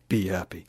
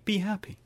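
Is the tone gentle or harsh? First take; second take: harsh; gentle. First: It is said harshly, with a gravelly, bullying tone. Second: It is said lightly, in a plain friendly tone. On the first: "I came in with that pretty harsh. You know, that was like a bullying" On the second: "But if I just say, hey"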